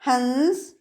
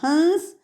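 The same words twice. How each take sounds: First: A full nasal consonant follows the vowel. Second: The vowel itself is nasalized, without a consonant. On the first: It names a bird. "हंस एक पक्षी का नाम है" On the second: It names the act of laughing. "हंस हंसने की क्रिया है"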